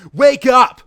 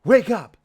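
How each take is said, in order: First: Loud high yell; shout. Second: Higher, louder call to wake her; hammed-up wake-up call; mock call. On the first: Acted. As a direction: bellow it as hard as you can. Sonic yells at Amy again. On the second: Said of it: "said Sonic to Amy as he kicked her".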